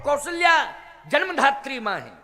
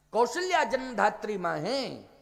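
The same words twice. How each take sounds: First: Raised, laughing near-shout on Kaushalya; preacher driving the point home to the crowd, loud; emphatic declaration. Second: Said in the usual way. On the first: Shown as a demonstration. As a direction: proclaim Kaushalya with a loud, higher, laughing burst. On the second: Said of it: "तो कौशल्या जन्मधात्री मां है".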